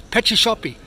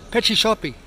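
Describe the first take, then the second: Both takes have the same delivery.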